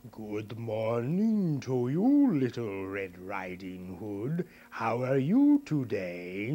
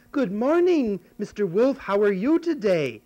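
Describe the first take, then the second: First: Slow, sly wolf voice; big bad wolf. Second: Put-on high, loud little girl greeting. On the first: Wolf greeting the girl in the woods, slow and sly. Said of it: "and he said". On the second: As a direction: chirp it like a sweet little girl.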